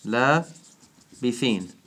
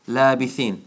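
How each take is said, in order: First: لَابِثِينَ stretched slowly in recitation tone; drawn-out recitation. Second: Said in the usual way. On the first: Shown as a demonstration. Teacher reciting the word for students, drawn out. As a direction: chant لَابِثِينَ long and measured as in tajweed. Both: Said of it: "Surah An-Naba".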